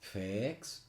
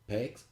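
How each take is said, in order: First: The vowel sound is long. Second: The vowel sound is short. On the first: The speaker calls it right. "it is uh, longer, it's P X" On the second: The speaker calls it wrong. "Instead of just being P X"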